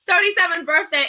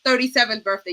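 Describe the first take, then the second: First: Excited repeat. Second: Said in the usual way. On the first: Real, not acted. Host to panel after laughing, gleeful repeat. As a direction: bounce back onto the number with glee.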